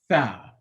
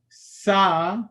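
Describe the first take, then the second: First: The letter begins with a soft th sound. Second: The letter begins with a hissing s sound. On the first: The speaker calls it right. "the Arabic tha" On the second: The speaker calls it wrong. "the Urdu sa"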